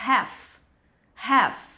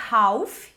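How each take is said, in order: First: Half said as "heff", the L silent; half pronounced "haf", A leaning to E. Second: Half said with an AU vowel, "hauf"; learner's half, sounding like "howf"; mispronounced half. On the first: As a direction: say half with an open E vowel and no L. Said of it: "o A com som de E". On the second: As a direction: say half wrongly, as "hauf" with a rounded glide. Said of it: "como eu vejo muita gente falando". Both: Shown as a demonstration.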